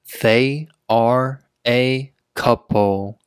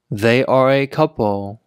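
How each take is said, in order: First: Slow, word-by-word reading; slow teaching pace. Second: Said in the usual way. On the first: Shown as a demonstration. Teacher showing learners "they are a couple", word by word. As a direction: set every word apart for learners.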